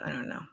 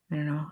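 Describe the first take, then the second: First: A small guilty whisper; hushed, conspiratorial I don't know. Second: Said in the usual way. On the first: Real, not acted. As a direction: drop to a breathless whisper as if caught out. Muttering after censoring herself.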